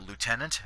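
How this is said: It is pronounced in an American style. "Americans pronounce it lieutenant"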